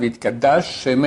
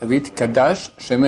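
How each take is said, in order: First: The two sh sounds merge into one. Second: The sh sound is said twice, separately. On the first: The speaker calls it wrong. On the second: The speaker calls it right.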